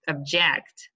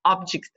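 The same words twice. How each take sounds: First: "object" as the verb, ob-JECT; last-syllable stress. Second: "Object" as the noun, OB-ject; first-syllable stress. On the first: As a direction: lean on the end of "object". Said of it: "The stress is on the last". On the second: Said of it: "on the first syllable". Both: Shown as a demonstration.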